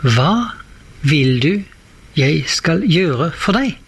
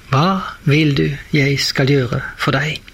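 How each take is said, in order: First: Slow, stretched-out tender asking; gentle question. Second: Said in the usual way. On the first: Retold or imitated. Elisha asking the widow what she needs, slow and gentle. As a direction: draw each word out, offering help. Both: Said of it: "og så spør Elisa".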